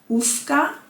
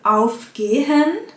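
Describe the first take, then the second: First: The prefix is shortened to 'uf'. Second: The prefix is said as full 'auf'. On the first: This is the Swiss German form. "wird auf zu uf" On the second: This is the Standard German form. "Beim Verb aufgehen wird auf zu uf"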